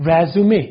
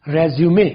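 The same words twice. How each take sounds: Both takes have the same delivery.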